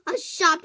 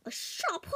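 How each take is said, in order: First: Loud mock. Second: Whispered mock. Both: Mocking the shop claim.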